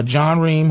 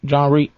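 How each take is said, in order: First: John Ream said with a final m; wrong name. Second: John Reep said with a final p; corrected name. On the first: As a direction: Ream ending on m, not p. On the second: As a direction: Reep ending on a crisp p. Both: Real, not acted.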